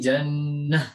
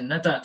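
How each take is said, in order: First: The word ends with an 'h' sound. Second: The word ends with a 't' and a vowel. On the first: The speaker calls it right. "tetapi jannah ya" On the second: The speaker calls it wrong. "bukan kita membaca menjadi jannata tidak"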